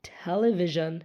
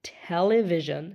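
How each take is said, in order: No difference in how they are said.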